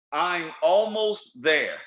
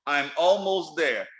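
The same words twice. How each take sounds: First: Slow deliberate phrase. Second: Repeated slowly. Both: Shown as a demonstration. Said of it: "Let me say that again".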